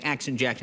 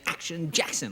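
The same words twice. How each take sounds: First: It is said in a plain, ordinary way. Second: It is said with big, dramatic flair.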